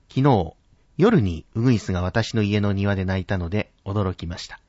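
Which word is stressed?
夜に. The word 夜に is said higher and stressed. "夜にというところを少し高く発音すると"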